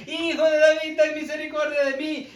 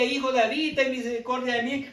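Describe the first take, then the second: First: A higher, louder plea of Hijo de David; crying out louder. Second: Said in the usual way. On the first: Retold or imitated. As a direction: call out to Jesus over the crowd, raising the voice. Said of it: "aún en vez de bajar la voz, él insistía". (un clamor más alto y más fuerte del ciego Bartimeo) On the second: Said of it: "en vez de bajar la voz".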